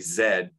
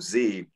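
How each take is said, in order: First: The letter is said the Canadian way. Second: The letter is said the non-Canadian way.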